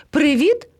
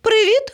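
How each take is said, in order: First: High hail with rising end; first call across to friends. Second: Very high, rising call; second, more insistent hail. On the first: Parrot hailing the cubs, calling out. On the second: Parrot hailing the cubs, calling out higher. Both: A narrator's reading. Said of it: "гукнув до них".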